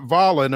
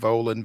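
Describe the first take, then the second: First: The name is said not rhyming with stolen. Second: The name is said to rhyme with stolen. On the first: The speaker calls it wrong. "It's not Volin or anything like that" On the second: The speaker calls it right. "it rhymes with stolen, so you got it right"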